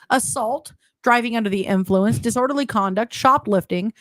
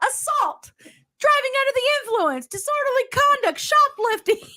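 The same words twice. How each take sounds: First: It is read in a plain, ordinary voice. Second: It is said in a peppy cheerleader voice.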